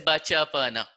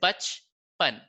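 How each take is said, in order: First: A short vowel follows every consonant. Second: Vowels after cha and na are dropped. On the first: The speaker calls it wrong. "You don't say bacha pana" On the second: The speaker calls it right. "You will say bach pan"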